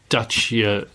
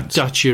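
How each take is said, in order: First: The name is pronounced the Romanian way. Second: The name is pronounced the usual English way. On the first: "Dacia said in Romania" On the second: "I say Dacia"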